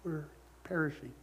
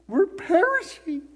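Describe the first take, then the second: First: It is said calmly and politely. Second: It is said in a panicked way.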